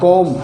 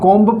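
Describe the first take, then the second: First: The word ends on the m sound. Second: The word ends with an audible b sound. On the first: The speaker calls it right. "बी silent रहेगा" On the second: The speaker calls it wrong. "आज से हमें ये नहीं पढ़ना"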